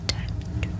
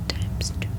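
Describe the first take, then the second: No difference in how they are said.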